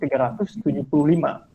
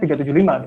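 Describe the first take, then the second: First: The number is read in full, careful form. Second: The number is read in a casual, shortened way. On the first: This is the proper formal reading. "Padahal yang formalnya itu" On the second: This is the everyday informal reading. "kalau misalkan nggak formal tuh dibacanya"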